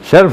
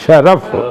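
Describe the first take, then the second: First: The r has no vowel after it. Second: The r is followed by a vowel. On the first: The speaker calls it wrong. "शर्फ बोलते हैं आमतौर पर, शर्फ नहीं है वो" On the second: The speaker calls it right.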